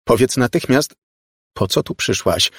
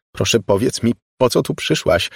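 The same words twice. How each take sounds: First: Louder, insistent order; demanding. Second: Strained, higher polite question; forced politeness. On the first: Margo orders the girl to explain herself, demanding. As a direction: demand an answer at once. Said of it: "zażądała Margo". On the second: Margo makes herself say please to the girl, strained politeness. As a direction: ask nicely against your will. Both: A narrator's reading.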